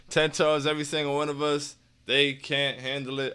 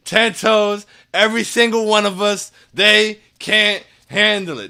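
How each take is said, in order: First: Flat, softer, no energy; low enthusiasm. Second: Loud, higher hype chant, slowing on the last line; hyped up. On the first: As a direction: say it half-heartedly, letting it drop. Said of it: "I don't have the same enthusiasm for it". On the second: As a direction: pump the crowd up with every word. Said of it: "That was much better. I felt a lot better about that one". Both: Shown as a demonstration.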